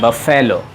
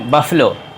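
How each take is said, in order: First: The middle syllable has a full 'eh' vowel. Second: The middle syllable has a reduced 'uh' vowel. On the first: The speaker calls it wrong. "आप बिल्कुल गलत हैं" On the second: The speaker calls it right. "इसका सही उच्चारण है बफलो"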